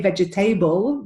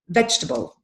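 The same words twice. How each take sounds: First: It is said with four syllables, ending 'table'. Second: It is said with three syllables, no 'table'. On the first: The speaker calls it wrong. "we don't say vegetable" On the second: The speaker calls it right. "There's no table in this word"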